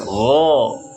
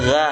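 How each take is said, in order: First: The letter is said heavy, tongue raised. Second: The letter is said thin, tongue lowered. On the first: The speaker calls it right. "harus go, tebal" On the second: The speaker calls it wrong. "Tidak boleh ga"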